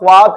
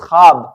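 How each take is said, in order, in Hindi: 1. पहले व्यंजन के बाद "w" की ध्वनि आती है। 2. पहले व्यंजन के बाद "w" की ध्वनि नहीं आती। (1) "इट इज नॉट ख्वाब" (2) "इट इज ख्वाब"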